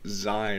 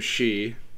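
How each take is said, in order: First: The name rhymes with 'sky', starting 'z'. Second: The name rhymes with 'see'. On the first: The speaker calls it wrong. "or Zai or whatever" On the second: The speaker calls it right. "That's actually how you pronounce it"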